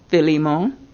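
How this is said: The name is said the Greek way. "in his language it is Philemon"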